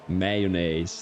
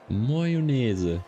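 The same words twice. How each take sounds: First: The word is pronounced with an American sound. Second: The word is pronounced with a French sound. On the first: "like the Americans" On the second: "like the French"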